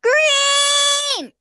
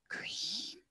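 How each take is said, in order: First: It is said very loudly. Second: It is said very quietly.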